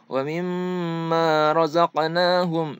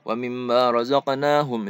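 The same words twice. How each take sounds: First: The nasal m sound is held long. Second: The nasal m sound is cut short. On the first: The speaker calls it right. "Harusnya ... ada penahanan dulu" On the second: The speaker calls it wrong. "Jadi jangan langsung ... itu salah ya"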